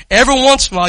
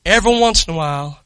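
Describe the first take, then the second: First: Every once in a while with once punched louder and falling; stress on once. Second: Said in the usual way. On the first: Shown as a demonstration. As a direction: lean hard on the word once.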